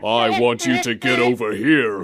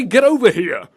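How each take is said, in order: First: Mock-menacing, lower register; Scorpion impression. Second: Louder, higher exclamation; punchy catchphrase delivery; Scorpion's catchphrase. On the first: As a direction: intone it low like a game villain. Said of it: "And Scorpion goes". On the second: Shown as a demonstration. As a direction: call it out with punch. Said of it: "Just say".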